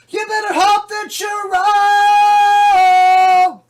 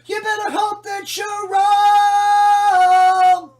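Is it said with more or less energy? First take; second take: more; less. First: It is said with more energy. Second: It is said with less energy.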